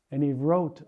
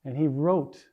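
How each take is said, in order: Both takes have the same delivery.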